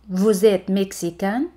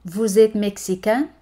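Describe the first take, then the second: No difference in how they are said.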